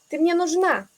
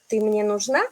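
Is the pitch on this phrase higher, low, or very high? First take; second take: higher; very high. First: The pitch goes somewhat higher with more energy. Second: The pitch jumps very high on one word. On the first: It is an emphatic statement. "Puedo ir un poco más arriba" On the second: It is a question. "siempre ahí voy muy arriba con la entonación"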